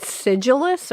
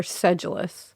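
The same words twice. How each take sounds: First: "sedulous" with a short i, SID-julus; SID-julus pronunciation. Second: "sedulous" with a short e, SED-julus; SED-julus pronunciation. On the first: Co-host checking the new word, "sedulous" said SID-julus. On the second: Co-host offering the other option, "sedulous" said SED-julus. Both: Shown as a demonstration. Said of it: "Is it sedulous or sedulous".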